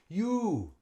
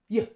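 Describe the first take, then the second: First: The vowel is a long, full 'oo'. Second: The vowel is a short schwa. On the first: The speaker calls it wrong. "we don't say ooh, it's too long" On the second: The speaker calls it right. "it's like half the size"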